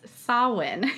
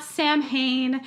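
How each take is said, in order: First: "Samhain" said SOW-in, no m or h; Gaelic pronunciation. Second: "Samhain" said as in English spelling, SAM-hain with an h; wrong pronunciation. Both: Shown as a demonstration. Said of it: "is how we would pronounce it".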